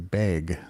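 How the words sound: It is said in the Seattle accent. "in Seattle it's a bag"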